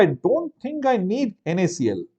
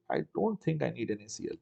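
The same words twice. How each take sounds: First: Said in the usual way. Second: Much softer, under the breath; quiet repeat to himself; muttered to self. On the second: Real, not acted. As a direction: mutter it to yourself as you check.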